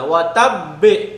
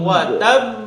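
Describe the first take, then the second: First: The final b is released with a full vowel. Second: The final b has only a light vowel echo. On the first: The speaker calls it wrong. "বে বলা যাবে না, এরকম না" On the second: The speaker calls it right. "Just হালকা কাসরার মতো হবে এখানে"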